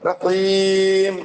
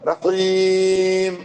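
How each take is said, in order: No difference in how they are said.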